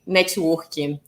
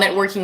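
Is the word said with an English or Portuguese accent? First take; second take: Portuguese; English. First: It is said with a Portuguese pronunciation. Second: It is said with an English pronunciation. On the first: "in Portuguese, we say networking" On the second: "networking in English"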